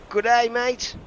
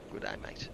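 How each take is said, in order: First: Loud, high Australian greeting; mock Australian. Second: Whispered Australian greeting; quiet Australian whisper. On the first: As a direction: shout it like a cheery Aussie. Greeting donor in Aussie style. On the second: Pretend. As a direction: breathe it out as a whisper. Repeats greeting.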